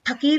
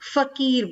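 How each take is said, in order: First: The word begins with an aspirated p sound. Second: The word begins with an f sound. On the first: The speaker calls it wrong. "फकीर नहीं" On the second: The speaker calls it right. "फकीर बोलेंगे इसको"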